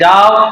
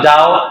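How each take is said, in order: First: It is said in a harsh, commanding tone. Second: It is said in a soft, sweet tone. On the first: The listener may take offence and get angry. The speaker calls it wrong. "প্রথমটা বলার পরে সে রাগ হয়ে যেতে পারে" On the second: The listener feels affection. The speaker calls it right. "একটু মিষ্টি ভাষায়"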